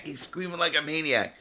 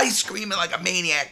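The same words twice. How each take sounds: First: Said in the usual way. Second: Much higher and louder, shouted; higher, louder retelling in a shout; excited shout. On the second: Retold or imitated. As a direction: blurt it out still caught in the scream. Retelling the guard's screaming.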